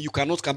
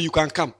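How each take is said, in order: First: Cannot stressed, leaning on the refusal. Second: Can stressed with a falling tune, inviting. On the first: Pastor contrasting Jesus' words with his own, stress on cannot. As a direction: make cannot the key word. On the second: Pastor telling his church they can follow, stress on can. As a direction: lean on can to welcome them. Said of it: "But me, where I'm going". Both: Shown as a demonstration.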